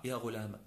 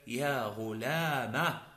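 First: "غلامة" ending in short a, softly; soft, lower "غلامة" with only a final fatha; alif dropped. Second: "غلامة" ending in a long aa; drawn-out "غلامة" with open final alif; ya turned alif. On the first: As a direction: cut "غلامة" short as ghu-laa-ma. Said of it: "تحذف الألف المتقدمة وتبقى فتحة". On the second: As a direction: slowly stretch "غلامة" to ghu-laa-MAA. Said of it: "فتنقلب حينئذ ألفا". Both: Shown as a demonstration.

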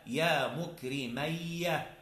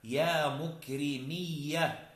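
First: "مكرمية" said mukrimayya, with ay; slow demo of "مكرمية" with a before doubled y; dual vowel pattern. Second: "مكرمية" said mukrimiyya, with a long i; slow demo of "مكرمية" with i before doubled y; plural vowel pattern. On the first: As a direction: slowly stretch "مكرمية" as mu-kri-MAY-ya. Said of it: "بالتثنية". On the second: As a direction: slowly stretch "مكرمية" as mu-kri-MIY-ya. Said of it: "في الجمع". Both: Shown as a demonstration.

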